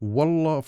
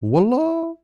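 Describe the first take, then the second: First: It is said low and tired. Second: It is said high and rising, surprised. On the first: The speaker is releasing pent-up frustration. "Tone low and tired" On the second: The speaker is reacting with surprise. "you are surprised. The word becomes a reaction in tone high rising"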